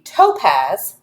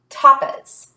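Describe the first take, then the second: First: The first vowel is long, like 'toe'. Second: The first vowel is short, like 'top'. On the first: "as a an open syllable, and this would be toe" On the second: "dividing it after the consonant and making it closed, which would be top"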